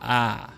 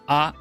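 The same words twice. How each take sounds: First: The vowel is drawn out longer. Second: The vowel is held only briefly. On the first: "it's a short or long ah" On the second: "it's a short or long ah"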